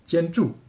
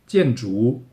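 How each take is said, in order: First: The second syllable does not have a rising tone. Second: A falling tone, then a rising tone. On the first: This is how it is said in mainland China. "中国就是建筑" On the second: This is how it is said in Taiwan. "先要第四声，然后第二声，就是台湾的建筑"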